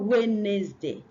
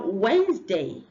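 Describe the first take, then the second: First: The D sound and middle vowel are pronounced. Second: The D sound and middle vowel are silent. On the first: The speaker calls it wrong. "not Wednesday" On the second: The speaker calls it right. "The D is silent and the second E is silent"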